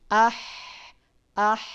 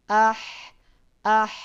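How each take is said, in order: No difference in how they are said.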